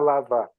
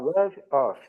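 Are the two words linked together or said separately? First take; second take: linked; separate. First: The two words run together as one word. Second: The two words are said separately and fully. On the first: "quem não conhece, nunca, jamais vai falar lava" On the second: "Vai falar love off"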